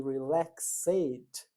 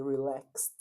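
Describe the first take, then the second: First: Relaxed with a full extra ed syllable; wrong full ending. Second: Relaxed with a plain t ending; clipped ending. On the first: Teacher shows the pronunciation to avoid, relaxed fully spelled out. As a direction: say relaxed as re-lax-ed. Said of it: "eu não falei relaxed". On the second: Teacher shows the right pronunciation, relaxed with a t ending. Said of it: "eu falei relaxed". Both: Shown as a demonstration.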